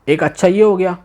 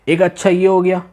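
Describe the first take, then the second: Both takes have the same delivery.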